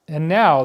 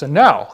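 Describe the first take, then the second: First: It is said in the speaker's normal voice. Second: It is said in a newscaster's voice.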